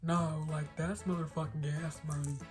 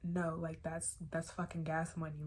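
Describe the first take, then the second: First: It is said imitating the car owner's accent. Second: It is said in the speaker's plain voice.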